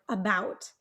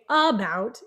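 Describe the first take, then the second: First: The stress is on the second syllable. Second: The stress is on the first syllable. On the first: The speaker calls it right. "we have a second syllable stress on the word about" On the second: The speaker calls it wrong. "it's a little harder for you to understand what I'm saying"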